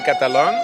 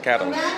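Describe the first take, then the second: First: The name is said with a Spanish pronunciation. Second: The name is said with an English pronunciation. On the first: "If you speak Spanish, you say Catalan" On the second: "If you speak English, you say Catalan"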